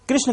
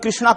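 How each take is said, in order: First: The name ends without a final long vowel. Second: The name ends with a long 'aa' vowel. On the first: The speaker calls it right. "कृष्ण की जगह पर" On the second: The speaker calls it wrong. "यह सब गलत धारणाएं हैं"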